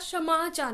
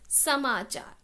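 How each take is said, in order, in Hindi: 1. यह शब्द sh ध्वनि से शुरू होता है। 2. यह शब्द s ध्वनि से शुरू होता है।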